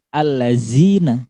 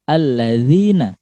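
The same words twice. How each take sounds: First: The middle consonant is a 'z' sound. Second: The middle consonant is a soft 'th' sound. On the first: The speaker calls it wrong. "bukan allazina" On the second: The speaker calls it right. "Nggak ada huruf z-nya sama sekali"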